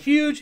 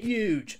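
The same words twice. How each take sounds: First: The word starts with a breathy h sound. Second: The word starts without any h sound. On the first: "instead of saying huge" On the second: "Donald Trump never pronounces his H's"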